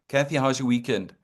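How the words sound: It is said in a flat, indifferent tone. The speaker does not really care about the person. The speaker calls it wrong. "If you're lukewarm for me on a Monday morning"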